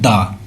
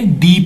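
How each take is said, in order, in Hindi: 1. यह शब्द एक छोटे 'uh' स्वर पर खत्म होता है। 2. यह शब्द एक लंबे 'ee' स्वर पर खत्म होता है। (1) "so we must प्रोनाउंसिएट it like द" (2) "बल्कि हम क्या पढ़ेंगे, दी पढ़ेंगे"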